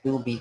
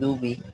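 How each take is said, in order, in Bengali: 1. শব্দটি নরম 'd' ধ্বনি দিয়ে শুরু হয়। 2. শব্দটি নরম 'd' ধ্বনি দিয়ে শুরু হয়।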